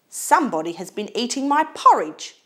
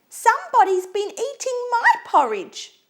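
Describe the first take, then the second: First: It is said in a loud, growly voice. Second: It is said in a high, squeaky voice.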